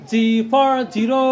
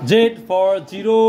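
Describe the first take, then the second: First: The letter is said as zee. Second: The letter is said as zed. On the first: "অথবা বলতে পারি জি for zero" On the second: "আমরা এখানে বলে থাকি জেড"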